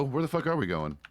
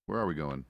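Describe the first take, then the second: First: Louder, higher, exasperated Where the fuck are we going; exasperated loud question. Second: Said in the usual way. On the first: Real, not acted. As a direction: blurt it out loud and fed up. In-game call to partners.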